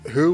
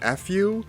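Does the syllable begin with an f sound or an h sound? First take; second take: h sound; f sound. First: The syllable begins with a breathy h sound. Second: The syllable begins with a lip f sound. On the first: The speaker calls it right. "better to pronounce it as who with an hu" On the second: The speaker calls it wrong. "rather than fu"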